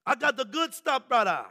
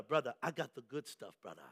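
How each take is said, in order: First: Emphatic imitated Jamaican accent, punchy ending; rusty Jamaican accent. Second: Low, hushed Jamaican hustler; under-the-counter sales pitch, imitated Jamaican accent; rusty Jamaican accent. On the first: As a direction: push the sale in a put-on Jamaican accent, raised pitch. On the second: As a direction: confide it softly in a put-on Jamaican accent. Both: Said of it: "a little rusty on my Jamaican ask, uh, uh, accent".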